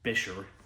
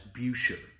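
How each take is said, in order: First: The name is said in the Bisher form. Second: The name is said in the Buescher form. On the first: This is said to be the real pronunciation. The speaker calls it right. "the actual pronunciation of it is Bisher" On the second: This is how some people have called the company. The speaker calls it wrong. "referred to by Trent Hamilton and perhaps other people as Buescher"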